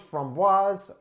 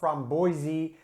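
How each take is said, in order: First: The word is said in a non-Dutch way. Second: The word is said in a Dutch way.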